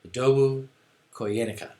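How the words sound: The name is said with a smooth, natural rhythm. The speaker calls it right. "I put it in a little bit better cadence. That sounded more natural"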